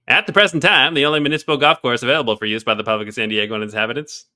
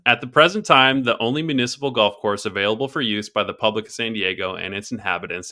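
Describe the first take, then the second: First: It is read in a put-on old-newspaper voice. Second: It is read in the speaker's normal voice.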